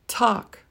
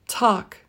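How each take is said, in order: The two takes are said the same way.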